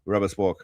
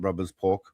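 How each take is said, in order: First: The s sound starts the second word. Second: The s sound ends the first word. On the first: The speaker calls it right. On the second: The speaker calls it wrong. "not rubbers pork"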